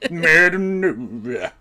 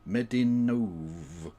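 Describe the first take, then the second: First: It is said in a plain speaking voice. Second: It is crooned like a lounge singer.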